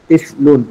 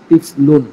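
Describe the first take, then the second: The two takes are said the same way.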